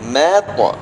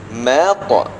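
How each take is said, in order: No difference in how they are said.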